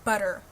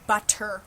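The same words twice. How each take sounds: First: The middle consonant is a soft D sound. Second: The middle consonant is a hard T sound. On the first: The speaker calls it right. "we say butter. It's two D's instead of two T's" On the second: The speaker calls it wrong. "We don't say butter"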